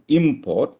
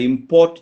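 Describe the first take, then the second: First: The stress is on the first syllable. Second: The stress is on the second syllable. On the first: It is the thing brought in. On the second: It is the action of bringing goods in.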